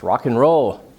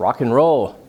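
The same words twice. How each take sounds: First: The word 'and' is reduced to an n sound. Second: The same.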